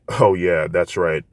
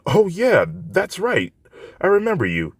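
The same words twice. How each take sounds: First: Said in the usual way. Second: Put-on much higher girlish voice; young woman recalling the boy who helped her; Yaoyorozu voice. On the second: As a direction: remember him with bright recognition.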